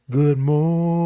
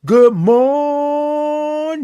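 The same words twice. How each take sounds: First: Held-back, drawn-out morning; discreet greeting for work. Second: High, full-voiced sung-out greeting; drawn-out morning greeting. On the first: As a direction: sing it small, as if at work. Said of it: "But you can say". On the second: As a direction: belt morning on one long high note. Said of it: "might not wanna say it like that". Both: Shown as a demonstration.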